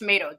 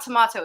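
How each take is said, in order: First: The middle vowel sounds like 'ay'. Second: The middle vowel sounds like 'ah'. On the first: This is the North American way the husband prefers. The speaker calls it right. "it's tomato. Just teach him to talk properly" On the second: This is the English way the son was taught. The speaker calls it wrong. "It's not tomato"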